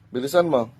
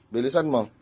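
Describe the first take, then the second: No difference in how they are said.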